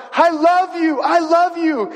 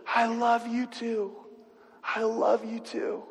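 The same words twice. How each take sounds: First: High, loud joyful shout down the aisle; shouted love. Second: Soft, slow and steady reply; sturdy confidence. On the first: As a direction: bride calls out to the groom, high and loud. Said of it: "and shouts". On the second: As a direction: answer her quietly, firm and sure. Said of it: "with this sturdy confidence". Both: Retold or imitated.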